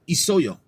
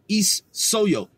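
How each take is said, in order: First: The s is said once, smoothly. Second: The s is doubled with a break. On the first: The speaker calls it right. "It's isoyo" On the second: The speaker calls it wrong. "You don't say is soyo"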